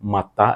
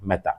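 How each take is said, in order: First: The first vowel is an 'a' sound. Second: The first vowel is an 'e' sound. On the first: The speaker calls it wrong. "മത്ത എന്ന് പറയരുത്" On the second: The speaker calls it right. "മെത്ത എന്നാണ് പറയാം"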